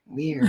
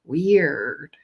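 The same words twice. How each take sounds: First: "weird" jumped much higher, then falling; high falling repeat. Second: Said in the usual way. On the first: Retold or imitated. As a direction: lift "weird" up high and let it drop.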